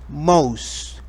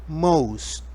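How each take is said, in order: Both takes have the same delivery.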